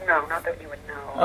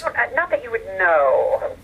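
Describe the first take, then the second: First: Softer, lower discreet denial; discreet dodge. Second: Slow, drawn-out coy denial; coy dodge. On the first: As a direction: drop lower and softer to close the subject. Repeats the dodge, closing the subject. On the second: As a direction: draw it out, keeping a secret. Coyly dodging a question on past lovers. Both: Real, not acted.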